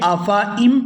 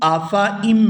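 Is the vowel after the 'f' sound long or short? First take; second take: short; short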